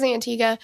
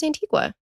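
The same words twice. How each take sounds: First: "Antigua" said an-TEE-ga, no w sound; "Antigua" ending in a plain ga; pronunciation Antigua. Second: "Antigua" said an-TEE-kwa, with a kw sound; "Antigua" with a hard t and kwa ending; pronunciation Antigua. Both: Shown as a demonstration. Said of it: "I think it's Antigua".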